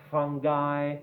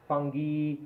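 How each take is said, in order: First: FUNGI said FUN-guy, hard g, eye ending. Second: FUNGI said FUN-ghee, hard g, ee ending. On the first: Teacher demos fungi as fun-guy. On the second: Teacher demos fungi as fun-ghee. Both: Shown as a demonstration. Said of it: "many pronunciations".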